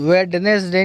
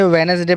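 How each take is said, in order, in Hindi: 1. पहला d ध्वनि साफ़ बोली जाती है। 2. पहला d ध्वनि छोड़ दी जाती है। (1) "वेडनेसडे नहीं पढ़ेंगे" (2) "वेनेसडे पढ़ेंगे"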